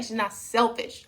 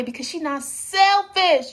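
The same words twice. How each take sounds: First: "not" leaned on, whole line lower and softer; stress on not. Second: Said in the usual way. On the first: Shown as a demonstration. Insisting to viewers, stress on "not". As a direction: press "not" in "She's not selfish". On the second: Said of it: "You see what I'm saying?".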